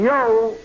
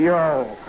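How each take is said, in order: First: "Yo" tossed out loud and bright; the private sings out "Yo" to the sergeant; eager reply. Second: "Yo" echoed back low and dry; the sergeant mimics the private's "Yo" low and flat; mocking echo. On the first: Retold or imitated. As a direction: answer "Yo" with a keen shout. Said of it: "I'd say". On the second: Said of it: "He'd say".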